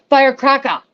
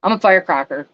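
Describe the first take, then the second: First: Put-on playful, high-pitched New York accent, a bit louder. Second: Said in the usual way. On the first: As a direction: belt out Firecracker in a hammed-up New York accent. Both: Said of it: "There's my New York accent".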